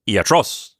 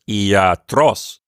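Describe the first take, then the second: First: The vowels are said short. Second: The vowels are said long. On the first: The speaker calls it wrong. "It's not short like that" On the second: The speaker calls it right. "lengthen the iota, lengthen the alpha"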